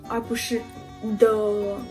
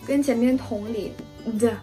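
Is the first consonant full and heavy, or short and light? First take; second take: full; light. First: The first consonant is long and full. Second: The first consonant is short and light. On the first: The speaker calls it wrong. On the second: The speaker calls it right. "辅音发的没有那么长，没有那么饱满"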